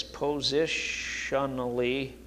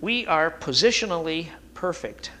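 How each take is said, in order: First: "Positionally" stretched out slowly and softly, each syllable weighted; drawn-out emphasis. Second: Said in the usual way. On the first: Shown as a demonstration. Preacher repeats the key word for the congregation, slow and deliberate. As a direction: lean on "Positionally", draw it out slowly. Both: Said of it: "You've already heard me say this".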